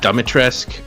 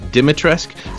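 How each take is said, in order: First: The first syllable is said as "da." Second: The first syllable is said as "di." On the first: "the D I, I guess, makes the da sound instead of di" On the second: "I think I've heard Dimitrescu"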